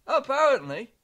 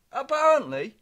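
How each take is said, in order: Both takes have the same delivery.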